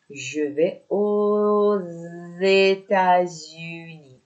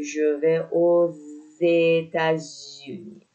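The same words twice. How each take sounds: First: Slow model with "aux" linked as z to "États-Unis"; "aux États-Unis" said very slowly, oz-états-unis; liaison demo. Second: "aux États-Unis" again slow with z liaison; careful second model of the z liaison; liaison repeated. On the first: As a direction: draw out "aux États-Unis" with a clear z linking sound. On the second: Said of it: "اینجا نوشته". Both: Shown as a demonstration.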